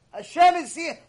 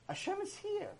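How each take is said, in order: First: "Hashem is here" said high and much louder; loud exclaim. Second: Hushed. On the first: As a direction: proclaim "Hashem is here" with force. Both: Shown as a demonstration.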